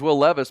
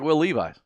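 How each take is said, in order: First: The surname does not sound like the jeans brand. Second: The surname sounds like the jeans brand. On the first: This is how the name is actually said. "I know his name's Will Levis" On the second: This is how the spelling makes it look. "it looks like Will Levis. It's spelled like the jeans"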